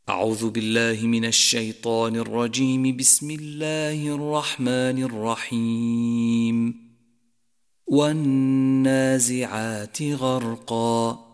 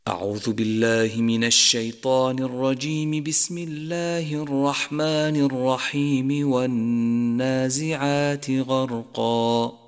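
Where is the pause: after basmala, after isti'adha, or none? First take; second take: after basmala; none. First: A pause comes after the second phrase only. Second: All three phrases run together without pausing. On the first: "وصل الاستعاذة بالبسملة والوقف عليها ثم الابتداء بأول السورة" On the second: "وصل الجميع"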